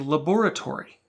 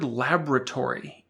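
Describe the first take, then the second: First: British accent, with every vowel sounded. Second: American accent, with one vowel dropped. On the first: "A person with a British accent would pronounce all the letters without any elisions" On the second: "in our American accent, we are eliding the first O"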